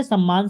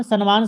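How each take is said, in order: First: "सम्मान" as sam-maan, double m; corrected form sammaan. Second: "सम्मान" as san-maan, with n before m; wrong form sanmaan. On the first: Teacher giving the right word, "सम्मान" as sam-maan. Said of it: "सम्मान शब्द गलत है". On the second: Teacher showing the wrong word, "सम्मान" as san-maan. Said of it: "शब्द गलत है". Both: Shown as a demonstration.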